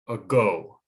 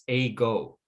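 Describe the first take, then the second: First: The first vowel is a short, quiet 'uh' sound. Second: The first vowel is a full, long 'ay' sound. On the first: The speaker calls it right. "it sounds more like a go" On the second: The speaker calls it wrong. "if we didn't have a schwa, we would say this a-go"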